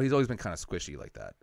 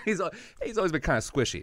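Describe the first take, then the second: First: Said in the usual way. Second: High, laughing through the words. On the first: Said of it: "my mom goes". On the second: Real, not acted. Repeating mom's odd word to the host, laughing hard. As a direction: crack up while repeating it.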